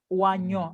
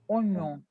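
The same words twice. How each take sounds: First: The first vowel sounds like 'wa'. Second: The first vowel sounds like 'o'. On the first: The speaker calls it wrong. "Ne dis pas oignon. ... La O I ne se prononce pas oa" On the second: The speaker calls it right. "se prononce on. Oignon"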